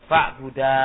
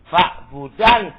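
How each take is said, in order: First: The word ends with a long vowel. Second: The word ends with an n sound. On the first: "nunnya dibuang menjadi fa'buda" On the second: "Asalnya apa?"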